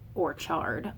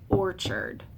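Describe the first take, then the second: First: The stress is on the second syllable. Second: The stress is on the first syllable. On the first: The speaker calls it wrong. "We don't say orchard" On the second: The speaker calls it right. "All of these are, are trochees"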